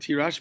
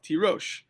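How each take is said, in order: First: The second syllable has an 'a' vowel. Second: The second syllable has an 'o' vowel. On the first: This is the word as written, without the vav. "it says the word Tirash" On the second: This is the word as it is read aloud, with the vav. "you read it with the vav"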